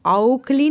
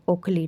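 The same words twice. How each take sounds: First: औखली said with au, the wrong vowel; wrong pronunciation pointed out by teacher. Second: Said in the usual way. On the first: Shown as a demonstration. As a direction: deliberately mispronounce ओखली as औखली. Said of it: "औखली नहीं". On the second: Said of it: "ओखली, ठीक है".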